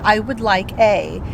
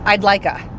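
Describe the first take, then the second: First: "I would" is said in full, two words. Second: "I would" is contracted to one syllable. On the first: This is more formal than a teen would speak. The speaker calls it wrong. "that's not how it's going to be" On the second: This is how a typical teen would speak. The speaker calls it right. "That's what he would have said"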